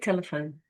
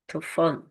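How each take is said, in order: First: Every vowel is pronounced fully. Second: The unstressed vowels are squashed or dropped. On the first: The speaker calls it wrong. "But I'm not going to say telephone" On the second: The speaker calls it right. "I'm going to say telefone"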